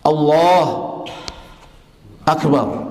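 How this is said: A long pause separates the two words.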